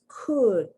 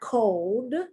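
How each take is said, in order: First: The vowel is a short u sound. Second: The vowel is a long o sound. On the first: The speaker calls it right. "It's could, ud, the short U sound" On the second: The speaker calls it wrong. "It's not cold"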